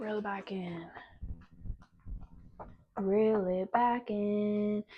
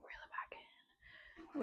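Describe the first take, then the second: First: Slow soft. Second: Whispered, almost silent; soft whispered self-reminder. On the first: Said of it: "self-instruction repeated". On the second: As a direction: breathe it to yourself. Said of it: "self-instruction". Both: Real, not acted.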